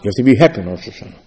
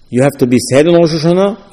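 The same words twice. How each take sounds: First: "you have to be happy" lower and fast, falling at the end; quick counter-statement. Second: "You have to be sad" posed as a question, rising at the end. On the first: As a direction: rattle off "happy in Rosh Hashanah" as the opposite side, dropping in pitch. Second of two opposing rulings. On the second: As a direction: pose "sad in Rosh Hashanah" as one side of a debate, voice lifting. Poses two opposing rulings. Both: Acted.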